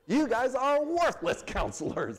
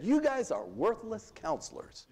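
First: Slower, higher, half-laughing scorn; amused mock outrage; mock indignant with a laugh. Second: Said in the usual way. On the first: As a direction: relish the insult, chuckling through it.

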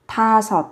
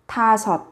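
No difference in how they are said.

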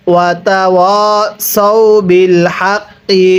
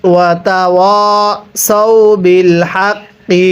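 First: Said in the usual way. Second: Slow tilawat with drawn-out final vowel; melodic recitation. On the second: Shown as a demonstration. Teacher recites the phrase for students in melodic tilawat. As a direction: recite it with melody, stretching হাক্কি. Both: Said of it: "কিভাবে শিখব?".

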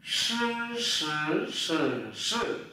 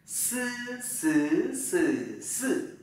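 First: "Sư" as a hushing sh with curled tongue, in four tones; retroflex sh. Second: "Sư" with plain hissed s, through high, rising, dipping, falling tones; Mandarin s syllable. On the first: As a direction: curl the tongue on "sư", one tone per take. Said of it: "S H này". (đọc "sư" cuộn lưỡi kiểu SH, bốn thanh) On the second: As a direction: drill "sư" tongue flat, one tone per take. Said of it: "Chữ S này". (đọc "sư" âm S thẳng lưỡi, bốn thanh) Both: Shown as a demonstration.

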